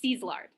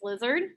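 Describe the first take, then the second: First: The name is said with an 'E' vowel. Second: The name is said with an 'uh' vowel. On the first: The speaker calls it right. "It's an E, not a uh. It's Szilard" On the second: The speaker calls it wrong. "That's not how you say it"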